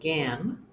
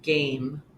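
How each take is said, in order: First: The middle vowel is short. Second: The middle vowel is long. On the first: The speaker calls it wrong. "instead of gam" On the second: The speaker calls it right. "we would say game because of the silent E"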